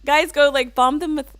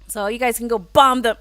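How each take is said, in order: First: Hard, pushy push on go and bomb; aggressive. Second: Laughing. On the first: Streamer urging chat to raid, sounding aggressive. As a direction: give an accidental aggressive command. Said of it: "sounded, like, really aggressive". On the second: Blurts request, instantly regrets it. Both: Real, not acted.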